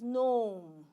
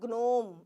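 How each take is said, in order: First: It starts directly with the N sound. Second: A G sound is heard before the N. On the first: The speaker calls it right. "It is gnome" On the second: The speaker calls it wrong. "It is not gnome"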